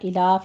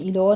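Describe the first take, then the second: First: The word ends in an open 'a' vowel. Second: The word ends in a rounded 'o' vowel. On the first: The speaker calls it right. "इला फतह कायमा अदा करनी है" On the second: The speaker calls it wrong. "इला को आपने इलो नहीं कहना"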